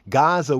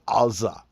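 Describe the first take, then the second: First: It begins with a hard G sound. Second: It begins with a throaty back-of-throat sound. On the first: The speaker calls it wrong. "instead of saying Gaza" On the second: The speaker calls it right. "It begins with a hard A, what we call the Ain"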